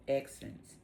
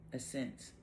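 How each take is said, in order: First: Accents read with a hard ks, as AK-sents; misread accents. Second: Ascents said as uh-SENTS, soft s, no k; soft self-correction uh-SENTS; corrected ascents. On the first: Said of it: "not accents". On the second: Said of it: "Ascents is what it says". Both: Shown as a demonstration.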